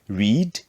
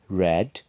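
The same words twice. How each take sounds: First: It is said with the base-form vowel. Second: It is said with the changed past-form vowel. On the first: It is the present base form. "So we say read" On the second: It is the past simple form. "the pronunciation changes in the simple past"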